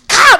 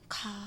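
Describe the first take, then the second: First: It is said forcefully and loudly. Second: It is said softly and weakly.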